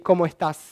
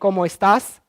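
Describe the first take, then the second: First: The s sounds are aspirated and fade away. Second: The s sounds are fully pronounced. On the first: "So you aspirate the s" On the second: "instead of saying"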